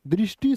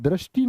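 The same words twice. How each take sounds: First: दृष्टि said "drishti", with short i; correct pronunciation. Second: दृष्टि said "drashti", with an a; wrong pronunciation. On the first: Teacher giving students the right word, दृष्टि said as drishti. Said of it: "दृष्टि शब्द होता". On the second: Teacher warning students of the error, दृष्टि said as drashti. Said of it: "दृष्टि नहीं". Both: Shown as a demonstration.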